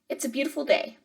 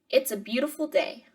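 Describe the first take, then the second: First: It is read at a natural, flowing speed. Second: It is read slowly, with a long gap after. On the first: It shows how a native speaker reads it. "now I'm going to read it at normal speed" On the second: The listener has time to repeat it. "hopefully I spaced that out enough that you guys could like say the sentence after I said the sentence"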